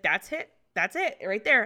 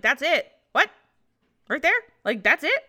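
First: Said in the usual way. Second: Loud, higher, rising disbelief; incredulous questioning. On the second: Retold or imitated. Patient shown the tiny embryo on a picture, incredulous. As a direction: echo it as baffled questions, ending in laughter. Incredulous echo of nurse's words.

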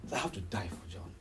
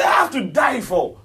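First: Low, very soft voice of Jesus thinking; hushed inner thought. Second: Loud, high, impassioned preacher's voice; emphatic declaration. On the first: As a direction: say it low, as if to yourself. Voicing Jesus' silent thought. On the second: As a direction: cry it out with full force. Repeats the thought emphatically. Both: Acted.

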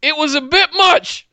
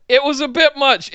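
First: Said in the usual way. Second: Laughing. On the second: Real, not acted. Repeats, laughing.

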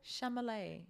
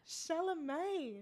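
First: "Chalamet" as sham-uh-lay with an m sound; insisting on "Chalamet" as sham-uh-lay. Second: "Chalamet" slow, as shuh-la-may; correcting "Chalamet" to shuh-la-may; careful "Chalamet" without an m; Chalamet said right. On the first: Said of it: "that's what I said". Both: Shown as a demonstration.

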